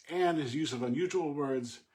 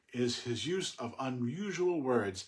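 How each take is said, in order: First: "unusual words" repeated higher and louder for emphasis; emphatic repeat. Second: Said in the usual way. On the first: Shown as a demonstration. Teacher underlining the point about rare rhyme words, emphatically. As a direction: say it again with more push on "unusual".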